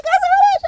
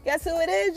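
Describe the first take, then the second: First: Squealed much higher and louder than Guess who it is; 1 excited squeal. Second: Said in the usual way. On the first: Shown as a demonstration. Vlogger teasing viewers about who knocks, squealing excitedly. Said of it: "third take, squealed very high". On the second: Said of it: "teasing build, repeated rising".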